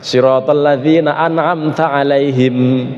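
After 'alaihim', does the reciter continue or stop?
stop. The recitation stops after the word alaihim. It makes the chapter seem to have eight verses. The speaker calls it wrong. "Itu jangan berhenti itu"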